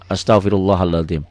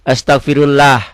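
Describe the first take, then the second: First: The L in 'Allah' sounds thick and heavy. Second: The L in 'Allah' sounds light and thin. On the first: The speaker calls it right. "Tebel tafhim" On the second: The speaker calls it wrong. "kalau nggak pakai guru nih bacanya astagfirullah"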